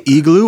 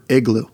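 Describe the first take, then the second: First: "igloo" starting with a long EE, "EE-gloo". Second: "igloo" starting with a short IH, "IG-loo". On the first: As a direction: say "igloo" with the first vowel of "eagle". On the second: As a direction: say "igloo" with the first vowel of "big". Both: Shown as a demonstration. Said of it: "do you guys say igloo or igloo".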